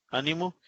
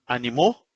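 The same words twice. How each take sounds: First: "ánimo" with stress on the opening Á; stress on first syllable. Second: "animó" stressed on the final MÓ; stress on last syllable. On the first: Teacher contrasting word accents for students, "ánimo" stressed on Á. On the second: Teacher contrasting word accents for students, "animó" stressed on final MÓ. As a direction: push the weight onto the end of "animó". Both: Shown as a demonstration. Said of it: "por la posición del acento podemos distinguir".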